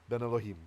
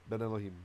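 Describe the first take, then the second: The two takes are said the same way.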